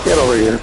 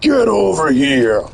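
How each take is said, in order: First: It is said casually, with little force. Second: It is said with strong, deliberate force.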